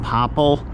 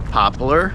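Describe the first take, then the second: First: The word ends in a plain 'pull' sound. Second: The word ends in a 'ler' sound. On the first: This is the speaker's own local pronunciation. "I pronounce them popple" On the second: This is how most of the country says it. "most of the country pronounces it pop, poplar"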